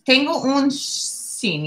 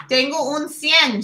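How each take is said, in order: First: "sin" said slowly as the misreading of cien; slow "Tengo un sin" with plain s-i-n. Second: "cien" said as see-en, the corrected word; "Tengo un cien" with cien as see-EN. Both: Shown as a demonstration. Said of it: "That says cien".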